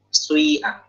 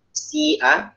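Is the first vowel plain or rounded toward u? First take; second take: rounded; plain. First: The first vowel is rounded toward a u sound. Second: The first vowel is a plain i. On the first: This is another reading. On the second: This is the usual reading.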